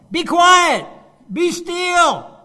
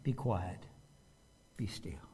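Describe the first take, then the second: First: Much higher, much louder yell; shouting version. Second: Much lower, much softer command; calm quiet version. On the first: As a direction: bark it like a frantic shout. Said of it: "I don't see Jesus going". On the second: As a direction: say it with still, quiet authority. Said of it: "I just see Jesus standing up and going". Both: Shown as a demonstration.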